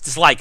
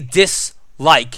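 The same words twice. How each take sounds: First: There is no break between 'dis' and 'like'. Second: There is a break between 'dis' and 'like'. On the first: It is read as one word. The speaker calls it right. "No, it's dislike. It's one word" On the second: It is read as two separate words. The speaker calls it wrong. "I read it that way because there's a space in between dis and like, as if it's two words"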